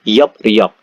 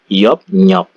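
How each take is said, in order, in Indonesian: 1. Suku katanya tersambung dengan bunyi p lalu r. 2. Suku katanya tersambung dengan bunyi p lalu n. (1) "Yop riok ini dibaca Yop nyok" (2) "L-nya berubah menjadi N"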